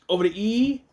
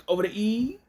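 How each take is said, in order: The two takes are said the same way.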